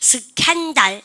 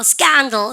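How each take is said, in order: First: The second syllable is said strong and full. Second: The first syllable is stressed; the second is weak. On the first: The speaker calls it wrong. "그거 아니고요" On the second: The speaker calls it right. "이렇게 하는데요"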